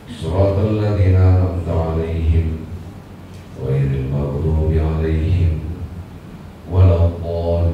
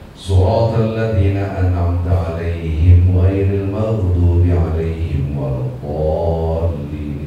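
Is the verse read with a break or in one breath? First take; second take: break; one breath. First: The verse is broken by a stop partway. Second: The whole verse is read in one breath. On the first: The speaker calls it wrong. "enggak begitu bacanya" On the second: The speaker calls it right. "itu satu nafas"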